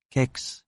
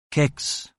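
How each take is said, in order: Both takes have the same delivery.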